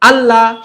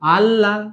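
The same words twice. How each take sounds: First: The word is said quickly and firmly. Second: The word is said softly and loosely. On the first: The speaker calls it right. "আল্লাহ শক্ত করে" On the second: The speaker calls it wrong. "এইরকম না"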